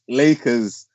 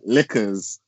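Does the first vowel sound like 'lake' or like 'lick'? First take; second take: lake; lick. First: The first vowel sounds like the one in lake. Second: The first vowel sounds like the one in lick. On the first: This is how the team name should sound. The speaker calls it right. "it's Lakers" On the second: This is how the other person says it. The speaker calls it wrong. "you're saying liquors"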